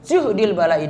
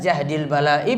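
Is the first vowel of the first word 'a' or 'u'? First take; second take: u; a. First: The first word's vowel is a rounded 'u'. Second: The first word's vowel is an open 'a'. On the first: The trial feels too heavy to bear or repel. "yang kedua dengan dhammah juhdil" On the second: The trial is heavy. "Yang pertama tadi dengan fathah jahdil"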